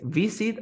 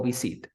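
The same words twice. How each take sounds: First: "visit" as VI-sit; stress on first syllable. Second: "visit" as vi-SIT; misplaced stress on the end of "visit"; wrong final stress. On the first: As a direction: lean on the VI of "visit". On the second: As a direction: push the weight onto -sit in "visit". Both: Shown as a demonstration. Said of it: "¿Cómo se dice visit o visit?".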